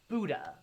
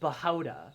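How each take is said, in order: First: The name keeps its original source-language sounds. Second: The name is said with altered, distorted sounds. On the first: The speaker calls it right. "if I'm gonna pronounce uh, like Buddha" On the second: The speaker calls it wrong. "I wouldn't want to be like Bahauda or something"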